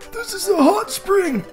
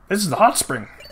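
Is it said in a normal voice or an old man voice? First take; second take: old man voice; normal voice. First: It is said in a put-on old man voice. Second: It is said in a normal voice.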